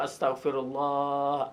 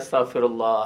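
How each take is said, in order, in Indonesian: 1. Diucapkan dengan sungguh-sungguh, penuh perasaan. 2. Diucapkan secara mekanis, tanpa perasaan. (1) "istighfar dengan penghayatan" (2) "bukan istighfar sekadar disebut pada mulut saja"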